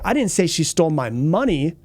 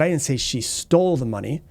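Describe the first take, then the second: First: The stress falls on the word money. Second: The stress falls on the word stole. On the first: She stole something other than money. "She might have taken something else from me, but it wasn't my money" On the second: She got the money some other way. "borrowed it, maybe she found it"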